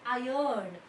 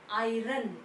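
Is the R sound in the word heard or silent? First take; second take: silent; heard. First: The R sound is silent in the word. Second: The R sound is clearly pronounced in the word. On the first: The speaker calls it right. "You have to pronounce it as iron" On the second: The speaker calls it wrong. "not iron"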